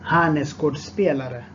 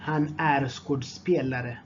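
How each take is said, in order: First: Said in the usual way. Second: Measured, each word distinct. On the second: Shown as a demonstration. Teacher repeats phrase more slowly.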